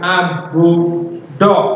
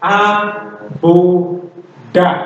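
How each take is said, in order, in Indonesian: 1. Suku kata terakhir berakhir dengan vokal 'o'. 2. Suku kata terakhir berakhir dengan vokal 'a'. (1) "bukan abu do" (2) "Jadi dibaca abu da"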